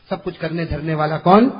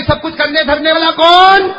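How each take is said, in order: First: Said in the usual way. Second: High, very loud call to respond; rousing shout. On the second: Real, not acted. Preacher demanding the congregation's answer, rousing shout. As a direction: belt out the question to the crowd.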